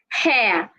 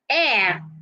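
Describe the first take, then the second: First: The word starts with an H sound. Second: The word starts without an H sound. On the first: The speaker calls it wrong. "not hair" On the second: The speaker calls it right. "Simply say air"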